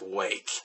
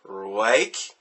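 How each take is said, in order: First: The word starts with a clean W sound. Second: The word starts with a slurred R sound. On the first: This is how the name is officially said. "but it is still pronounced Wake" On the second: It came out this way while intoxicated. "they were slurring their words, and it just kept coming out"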